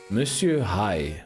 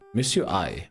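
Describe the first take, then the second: First: The name begins with an h sound. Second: The name begins without any h sound.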